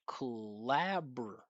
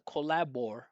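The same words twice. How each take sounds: First: The R syllable has no vowel sound. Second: The R syllable has a full vowel sound. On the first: The speaker calls it right. "No vowel sound here" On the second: The speaker calls it wrong. "Not collabor"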